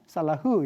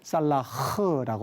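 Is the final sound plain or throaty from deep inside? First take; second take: plain; throaty. First: The ending is said plainly, without a throaty sound. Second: The ending comes out throaty, from deep inside. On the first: "우리가 적을 때는 살라흐 이렇게 적습니다만" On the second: "발음할 때는 살라흐라고 발음을 하죠"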